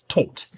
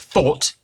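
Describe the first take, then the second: First: The th sound is flattened toward a t. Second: The th sound is pronounced fully. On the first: "becomes more like taught" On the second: "The word thought"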